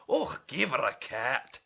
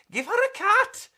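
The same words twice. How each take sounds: First: Grumpy neighbour. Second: Much higher, louder complaining voice; squeaky neighbour. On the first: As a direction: lower complaining old neighbour. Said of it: "complained Mister Biggs". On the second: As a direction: whine it sharply. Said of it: "complained Mister Figs". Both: Acted.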